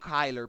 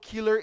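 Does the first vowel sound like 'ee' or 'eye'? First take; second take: eye; ee. First: The first vowel sounds like 'eye'. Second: The first vowel sounds like 'ee'. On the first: The speaker calls it wrong. "e não Kyler" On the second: The speaker calls it right. "eu falo killer"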